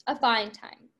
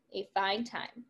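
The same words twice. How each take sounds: First: Said in the usual way. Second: A fine time said again, softer and trailing off; fading echo. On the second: Acted. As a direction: let the repeat drift away, quieter. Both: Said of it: "repeated line in script".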